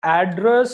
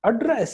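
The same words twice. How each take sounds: First: "address" as AD-dress; stress on first syllable. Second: "address" as ad-DRESS, higher and falling; stress on second syllable. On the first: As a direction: hit AD, reduce the end of "address". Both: Shown as a demonstration. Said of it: "दोनों का spelling same है".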